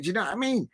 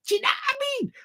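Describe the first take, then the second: First: Said in the usual way. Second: Very high, squeaky repeat of the catchphrase; comic high-pitched outburst; high squeal. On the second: Pretend. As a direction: shoot right up into a squeaky voice.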